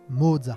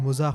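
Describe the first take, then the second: First: The name is said with a German pronunciation. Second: The name is said with a French pronunciation. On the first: "si l'on veut être exact, il faudrait dire" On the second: "Pour le grand public, ... à l'image de Mozart ou de Bach, dont on transcrit facilement les noms"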